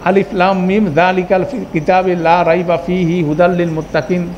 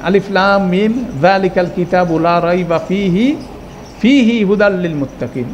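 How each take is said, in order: First: It is read straight through without any stop. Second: It stops after fihi, then repeats fihi. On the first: "টানা পড়ে গেলেন" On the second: "আপনি দুইটা বাক্য কিন্তু বলতেছেন"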